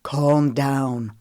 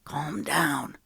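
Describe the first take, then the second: First: Cutting in, a touch louder; interjecting. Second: Softer, hushed aside; whispered. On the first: Wesley cutting Lemon off on the phone, interjecting. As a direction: cut her off to settle her. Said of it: "Wesley interjected". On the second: Knox quietly urging Lemon during the call, hushed. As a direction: hush her under your breath. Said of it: "Knox whispered". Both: A narrator's reading.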